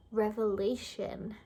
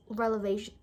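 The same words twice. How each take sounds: First: "revelation" said slowly and correctly, rev- first; careful correction. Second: "relevation" with the l and v swapped; tongue-tied slip. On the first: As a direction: spell out "revelation" slowly after the slip. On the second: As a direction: stumble into "relevation", rele- first. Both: Real, not acted. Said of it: "I can't speak".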